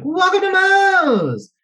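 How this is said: It is said with excited enthusiasm.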